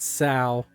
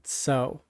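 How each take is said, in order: First: The word has a different vowel from 'so'. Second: The word sounds like 'so'. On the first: The speaker calls it wrong. "anybody who wants to pronounce it Sal, you're wrong" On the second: The speaker calls it right. "every single one of them said so"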